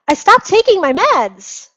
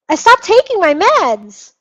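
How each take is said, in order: Both takes have the same delivery.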